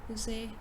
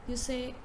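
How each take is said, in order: The two takes are said the same way.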